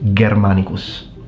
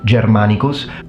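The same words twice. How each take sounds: First: The word starts with a hard G sound. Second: The word starts with a soft j-like G. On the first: This is the ancient Roman style of Latin. "in classical pronunciation it's always pronounced like a G, so it becomes" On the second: This is the church style of Latin. "In ecclesiastical pronunciation, when G is followed by I and E, it will be pronounced as G, so"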